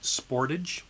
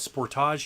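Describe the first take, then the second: First: It is said the American way. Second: It is said the French-Canadian way. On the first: This is how people in the United States say it. "If you're from the United States, you call it Sportage" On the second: This is how people in Canada say it. "we call it Sportage here in Canada because you know we're a little French"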